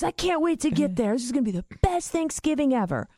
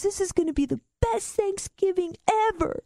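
First: Milder mock glee, pitched up and rushed; imitating tickled laughter. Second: High, squeaky mock hysterics; imitating laughing-till-crying. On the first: Brother eager to come see stoned dad, gleefully tickled. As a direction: rush it out in gleeful anticipation. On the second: Brother delighted by news of stoned dad, hysterically tickled. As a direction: voice pitched way up as if helpless with glee. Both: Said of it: "He starts laughing so hard he's crying".

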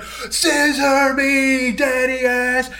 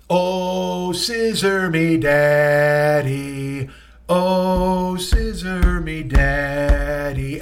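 First: High, drawn-out mock yell; mock crowd shout. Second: Slow sung chant with long held notes; crowd chant. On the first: Imitating wrestlers finishing a long build-up, mock crowd shout. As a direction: stretch each word like a wrestling catchphrase. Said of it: "like, this long build-up". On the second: Retold or imitated. Imitating fans chanting to a song, sung crowd chant. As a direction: sing it like a stadium crowd. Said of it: "They start chanting".

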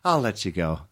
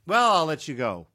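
First: Lightly imitated mom, lower; lower, understated phone goodbye; a hint of mom ending the call; mom's phone sign-off. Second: Lightly imitated mom ending a call; a hint of mom's sign-off; mom's phone sign-off. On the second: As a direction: politely wrap up the phone call. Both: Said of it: "that's how she ends it".

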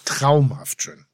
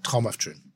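First: Traumhaft drawn out slowly, each syllable savored; slow savoring. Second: Said in the usual way. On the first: Shown as a demonstration. Host relishing the boat varnish, said slowly. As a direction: Traumhaft schön, said slowly as if tasting it. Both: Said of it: "Sag noch mal".

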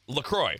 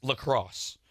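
First: "LaCroix" ending in oy, silent x; pronounced LaCroy. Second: "lacrosse" ending in a hissed s sound; pronounced lacrosse. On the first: Host giving the company's pronunciation, "LaCroix" ending in oy. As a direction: say "LaCroix" to rhyme with boy. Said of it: "it is pronounced". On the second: Host showing the other pronunciation, "lacrosse" with final s. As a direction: say "lacrosse" like the sport. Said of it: "supposed to be pronounced". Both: Shown as a demonstration.

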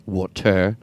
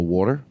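First: "Water" with a full, over-pronounced "-ter" ending; odd pronunciation. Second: Said in the usual way. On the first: Shown as a demonstration. Host testing the word on himself, "Water" with an over-pronounced ending. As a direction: say "Water" with its second syllable sounded out as "tair". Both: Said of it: "I wanna say water normal".

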